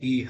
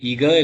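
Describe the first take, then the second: First: The middle consonant is a breathy h sound. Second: The middle consonant is a hard k sound. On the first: The speaker calls it right. "ஹங்கிறது தொண்டையிலேருந்து ஹ சத்தம் வரணும்" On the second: The speaker calls it wrong. "இக இல்ல"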